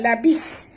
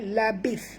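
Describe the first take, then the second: First: The word ends with a hissing s sound. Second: The word ends with a soft th sound. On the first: The speaker calls it wrong. "bukan labis. Kalau labis bunyi sin yang berdesir" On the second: The speaker calls it right. "huruf tha sini jaga makhrajnya"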